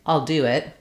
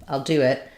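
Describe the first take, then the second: Both takes have the same delivery.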